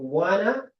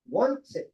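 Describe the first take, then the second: First: The two words blend into a reduced 'wanna'. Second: Both words are said fully and separately. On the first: This is how Americans say it. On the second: This is how the British say it.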